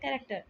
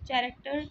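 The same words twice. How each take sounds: First: The word begins with a k sound. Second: The word begins with a ch sound. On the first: The speaker calls it right. "उसको हम pronounce करेंगे as a क" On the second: The speaker calls it wrong. "अगर नहीं पता होगा कि इसका ओरिजिन क्या है"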